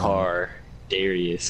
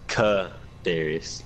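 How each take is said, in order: First: The first syllable has an R sound. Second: The first syllable has no R sound. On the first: The speaker calls it right. "don't forget that R" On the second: The speaker calls it wrong. "you're not pronouncing the R"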